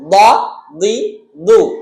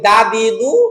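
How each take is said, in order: First: The d is heavy, made with the tongue's side. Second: The d is light, made with the tongue tip. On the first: The speaker calls it right. "বদ জবর দ, আমি বাম পাশ থেকে বলতেছি দ" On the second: The speaker calls it wrong. "আমরা যারা এক করে ফেলি তারা বলি দা দি দু"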